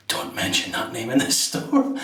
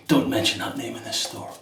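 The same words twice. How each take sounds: First: Laughing through a mock warning; joking warning. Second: Deadpan mock-stern warning, no laugh. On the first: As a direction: tease it with a laugh. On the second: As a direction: say it like a playful bouncer. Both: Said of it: "Jokingly, the guy said".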